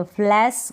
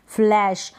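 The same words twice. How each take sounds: First: फ्लैश said as "flass"; wrong pronunciation. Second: Said in the usual way. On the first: Shown as a demonstration. Teacher names the wrong pronunciation, फ्लैश as फ्लैस. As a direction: end फ्लैश on a plain s. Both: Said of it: "गलत pronunciation हो जाएगा".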